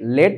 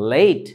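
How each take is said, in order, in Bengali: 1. স্বরধ্বনিটি একটি ছোট, সাধারণ 'e'। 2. স্বরধ্বনিটি একটি গড়িয়ে যাওয়া 'ay' ধ্বনি। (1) "আমরা বাঙালিরা কি বলি জানো? ... লেট লেট লেট না তো" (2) "দ্যাটস লেট"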